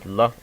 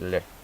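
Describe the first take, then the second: First: The L sound is hard. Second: The L sound is soft. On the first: "versus L" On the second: "it uh makes the sound soft"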